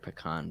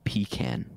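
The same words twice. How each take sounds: First: The first syllable is a reduced 'puh' sound. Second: The first syllable is a full 'pee' sound.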